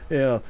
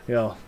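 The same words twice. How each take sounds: The two takes are said the same way.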